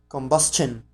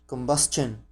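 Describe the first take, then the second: First: The t is said as a ch sound. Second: The t is said as a ch sound.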